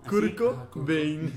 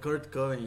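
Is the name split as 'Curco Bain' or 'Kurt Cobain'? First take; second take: Curco Bain; Kurt Cobain. First: The name is split as Curco plus Bain. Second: The name is split as Kurt plus Cobain. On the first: It copies a misspelled written version of the name. The speaker calls it wrong. "alguien escribió como Curco" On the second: It is the usual way to say the name. The speaker calls it right. "yo le diría [name]"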